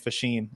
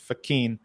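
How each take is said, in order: First: The middle consonant is a soft sh sound. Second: The middle consonant is a hard k sound. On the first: This is the Americanized form of the name. "people used to pronounce the name Fashin" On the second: This is the original Italian form of the name. "the actual Italian pronunciation is Fachin"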